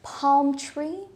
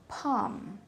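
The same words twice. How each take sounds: First: Palm with the L clearly sounded; Filipino pronunciation. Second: Palm as pahm, softer; silent L. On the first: Retold or imitated. Teacher imitating most Filipinos, sounded L. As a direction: say palm as palm with an audible L. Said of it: "most of the Filipinos would say". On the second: Shown as a demonstration. Teacher modelling the correct word, silent L. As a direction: say palm without the L. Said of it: "a silent L".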